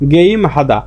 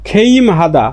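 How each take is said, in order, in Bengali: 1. প্রথম শব্দটি g ধ্বনি দিয়ে শুরু হয়। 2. প্রথম শব্দটি k-এর মতো ধ্বনি দিয়ে শুরু হয়।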